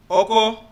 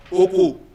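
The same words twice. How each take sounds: First: OKO as hoe, said with its own tone pattern; tone-marked OKO, first of two meanings; tonal demo. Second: OKO with the contrasting tone pattern; tone-marked OKO, second of two meanings; tonal demo. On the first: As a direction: say OKO carefully as the first tone word. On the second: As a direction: say OKO carefully as the second tone word. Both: Shown as a demonstration. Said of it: "pitch of my voice changes the meaning".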